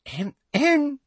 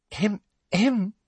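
First: Higher prim throat-clearing; fake cough. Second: High prim throat-clearing; a dainty fake little cough. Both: A narrator's reading. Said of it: "Umbridge's fake cough".

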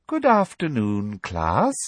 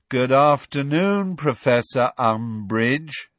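First: Smug teacher. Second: Slow, drawn-out classroom chant; chanted, drag it out drearily, all in rote unison; dreary chant. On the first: Umbridge greeting her class, smugly. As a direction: greet them with prim, smug cheer. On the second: Pupils answering their teacher's greeting, chanting drearily. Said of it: "they chanted drearily". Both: A narrator's reading.

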